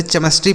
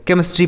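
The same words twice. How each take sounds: First: "केमिस्ट्री" said with ch, che-mis-tri; "केमिस्ट्री" misread as CHE-mis-tri; common mispronunciation. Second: "केमिस्ट्री" said with k, ke-mis-tri; "केमिस्ट्री" as KE-mis-tri, CH sounded as k; correct pronunciation. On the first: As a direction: say "केमिस्ट्री" starting as in chair. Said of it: "बहुत लोग इसे केमिस्ट्री पढ़ते हैं". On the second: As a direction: say "केमिस्ट्री" with a hard k first. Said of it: "इसे केमिस्ट्री पढ़ा जाता है". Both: Shown as a demonstration.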